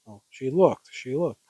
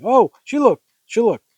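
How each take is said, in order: First: Said in the usual way. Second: High, loud, startled outburst; hysterically pitched-up reaction; overdramatic exclamation. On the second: Acted. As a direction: gasp it out with melodrama. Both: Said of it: "You can't say it like that".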